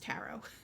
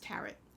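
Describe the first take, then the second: First: The final T sound is silent. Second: The final T sound is pronounced. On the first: The speaker calls it right. "In English, we don't pronounce the T" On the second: The speaker calls it wrong. "the British don't pronounce it as tarot"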